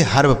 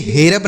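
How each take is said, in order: First: "हर्ब" as one syllable, harb; ER as short A. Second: "हेरब" as he-rab, two syllables; E misreading. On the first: Teacher corrects the wrong reading, "हर्ब" as harb. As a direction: say "हर्ब" with short a before r-b, lower. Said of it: "इसे हर्ब पढ़ा जाएगा". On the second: Teacher shows what not to read, "हेरब" as he-rab. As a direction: say "हेरब" with an e after h. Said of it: "इसे हेरब नहीं पढ़ा जाएगा". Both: Shown as a demonstration.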